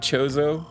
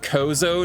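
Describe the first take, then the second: First: The word begins with a ch sound. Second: The word begins with a hard k sound. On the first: The speaker calls it right. "not chozo" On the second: The speaker calls it wrong. "I said kozo"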